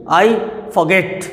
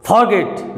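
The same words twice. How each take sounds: First: "forget" with a light for and a strong GET; stress on GET. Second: "forget" with FOR drawn out and weighted; wrong stress on FOR. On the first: English teacher showing correct stress, "forget" stressed on GET. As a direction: lean on the second syllable of "forget". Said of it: "stress है". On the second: English teacher showing the wrong way, "forget" stressed on FOR. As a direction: hit the first syllable of "forget". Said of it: "नहीं". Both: Shown as a demonstration.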